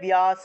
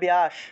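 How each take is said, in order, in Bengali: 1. b-এর পরে একটি y-glide দিয়ে বলা হয়। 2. এটি বাংলা উচ্চারণে বলা হয়। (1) "সংস্কৃতে বললে ব্যাস" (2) "বাংলায় বললে ব্যাস"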